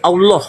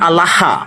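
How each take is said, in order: First: The final vowel is a nasal, rounded 'oh'. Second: The final vowel is a plain open 'ah'. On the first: This way is claimed to come from Hebrew. "nah itu ini jadi Allah" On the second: This is the Arabic way of saying it.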